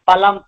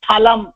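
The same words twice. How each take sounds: First: The first consonant is plain and unaspirated. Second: The first consonant is pressed and aspirated. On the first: It means meat. "அப்படி அழுத்தி சொல்லாம" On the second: It means fruit. "அழுத்தி சொன்னாதான் பழம்னு அர்த்தம்"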